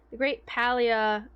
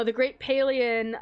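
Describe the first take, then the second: First: First vowel of Palia as in "pal". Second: First vowel of Palian as in "pay"; Palia as PAY-lee-un. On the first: Streamer correcting the game's name, Palia as PAL-ee-uh. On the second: Streamer guessing at the event's name, Palian as PAY-lee-un. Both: Shown as a demonstration. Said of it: "is it Palia or Palia?".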